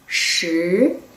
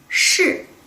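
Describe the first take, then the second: First: The pitch rises from middle to high. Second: The pitch falls sharply from high. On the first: It means ten. "raising tone could be number ten" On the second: It means yes. "falling tone could be yes"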